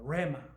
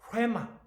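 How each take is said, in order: First: The word starts with a plain r sound. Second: The word starts with a breathy h sound. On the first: The speaker calls it wrong. "그냥 레마가 아니고" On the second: The speaker calls it right. "흐 발음이 들어있습니다. 그래서 레마, 레마 이렇게 발음해야 되는데"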